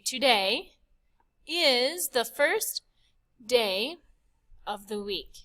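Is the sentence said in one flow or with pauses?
pauses. The sentence is broken by pauses for breath.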